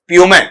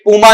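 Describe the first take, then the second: First: It begins 'pyoo' and ends with 'ay'. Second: It begins 'poo' and ends with 'ah'. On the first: The speaker calls it right. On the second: The speaker calls it wrong.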